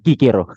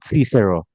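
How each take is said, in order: First: The name is said the original Latin way. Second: The name is said the English way. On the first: "dalam bahasa Latin pengucapan aslinya adalah Kikero" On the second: "dalam bahasa Inggris ada yang sebut Cicero"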